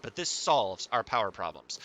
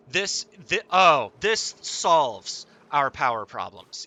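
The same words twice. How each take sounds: First: Said in the usual way. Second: Excited. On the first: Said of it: "It's gonna take work to harness it". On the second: Real, not acted. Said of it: "I'm so happy".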